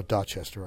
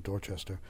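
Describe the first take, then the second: First: "Dorchester" with the first R dropped, Dah-chester; local Boston pronunciation. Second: Said in the usual way. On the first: Shown as a demonstration. Linguist corrects himself to local "Dorchester", dropped-R Boston pronunciation. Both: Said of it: "I should be saying".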